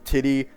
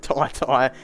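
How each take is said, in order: First: The name sounds like 'titty' with short vowels. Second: The name sounds like 'tie tie' with long vowels. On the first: The speaker calls it wrong. "there's guys out here calling him Titty Washington Junior" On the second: The speaker calls it right. "which I think is the correct way to pronounce his name"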